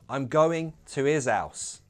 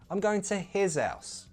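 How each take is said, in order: First: Both H sounds are dropped. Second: Only the first H sound is pronounced. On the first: "So we could possibly drop both of those H's" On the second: "keep the first H, drop the second one"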